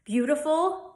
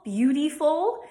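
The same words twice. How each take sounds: First: Said in the usual way. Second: "beautiful" said as beauty-ful with a long ee. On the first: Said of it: "other words like attitude". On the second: Shown as a demonstration. Teacher shows "beautiful" the Delco way, contrasted with the plain take. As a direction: lean on the ee in "beautiful". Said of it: "will be attitude".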